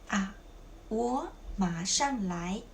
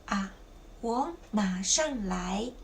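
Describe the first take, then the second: The two takes are said the same way.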